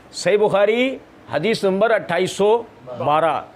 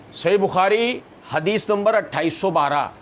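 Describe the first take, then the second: The two takes are said the same way.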